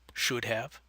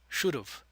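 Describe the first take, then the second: First: Have is said fully as a separate word. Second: Have is reduced and joined to should. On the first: "the long forms" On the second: "the contractions"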